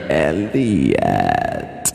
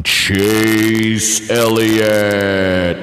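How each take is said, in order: First: A light take on the movie alien saying Elliott; E T impersonation. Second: Announcer name call. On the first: Retold or imitated. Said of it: "that was my E T impersonation". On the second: Acted. Calling out the race winner, stretched announcer drawl. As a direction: Chase Elliott stretched out very slowly, announcer style.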